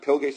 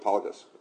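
First: The first vowel sounds like 'i'. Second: The first vowel sounds like 'a'. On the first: "I'm not sure if you pronounce it pilgas or palgas" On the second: "I'm not sure if you pronounce it pilgas or palgas"

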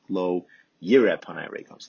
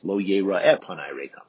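First: The verb is said yir'eh, with two syllables. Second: The verb is said yira'eh, with three syllables. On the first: The verb means he will see. The speaker calls it wrong. "I kept saying" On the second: The verb means he will be seen. The speaker calls it right. "So sorry about that"

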